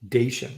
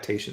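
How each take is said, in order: First: The syllable begins with a d sound. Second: The syllable begins with a t sound. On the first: The speaker calls it right. "It's accreditation" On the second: The speaker calls it wrong. "I don't know why I got tation stuck in my head"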